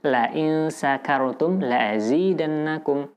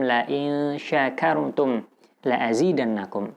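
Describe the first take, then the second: First: The verb begins with a thin 's' sound. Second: The verb begins with a 'sh' sound. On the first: If you are drunk, I will give you more. The speaker calls it wrong. "jika kita baca tipis sehingga makhraj yang keluar adalah makhraj huruf sin tanpa titik" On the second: If you are grateful, I will give you more. The speaker calls it right. "di sini menggunakan shin besar ya"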